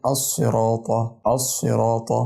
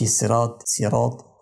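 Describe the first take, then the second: First: "الصراط" as as-siraata with a thick, emphatic s; weight the sad in "الصراط"; "الصراط" recited with a full sad, never a light seen; heavy sad. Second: "الصراط" with a thin, light s; "صراط" mispronounced as siraat with a seen; sad turned seen. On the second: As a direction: lighten the first letter of "صراط" into a plain seen. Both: Shown as a demonstration. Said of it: "كده أنا قلبت الصاد سين".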